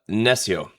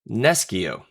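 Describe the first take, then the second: First: It is pronounced in the ecclesiastical Latin way. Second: It is pronounced in the classical Latin way. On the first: "traditional ecclesiastical Latin pronunciation would be" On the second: "the classic Latin word nescio"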